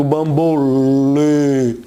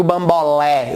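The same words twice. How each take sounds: First: Bambolê low and slow with a long closed "ê"; drawn-out "bambôlêê". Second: Bambolé with an open "é" at the end; wrong open E. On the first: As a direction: stretch the last vowel of bambolê, narrow like "ay". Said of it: "eu digo bambolê". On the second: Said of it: "eu não digo bambolé". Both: Shown as a demonstration.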